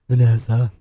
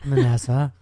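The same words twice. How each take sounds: First: It is said in a deeper voice. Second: It is said in a higher voice.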